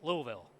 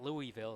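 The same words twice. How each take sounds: First: It is said the local Kentucky way. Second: It is said the outsider, non-local way.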